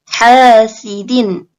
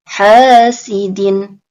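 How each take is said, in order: Both takes have the same delivery.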